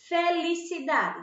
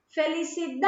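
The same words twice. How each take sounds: First: Said in the usual way. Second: "felicidade" called out with a long-held DA; calling the word. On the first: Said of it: "Qual é a sílaba mais forte". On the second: Shown as a demonstration. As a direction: stretch the stressed "da" in "felicidade". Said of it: "Vamos chamar ela".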